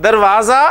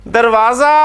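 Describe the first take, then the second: The two takes are said the same way.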